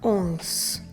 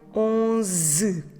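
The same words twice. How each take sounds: First: The final vowel is dropped, ending on z. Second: It is slow, with a final vowel sounded. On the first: The speaker calls it right. "Finish with the sound z" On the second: The speaker calls it wrong. "pronounce it very slowly, syllable by syllable"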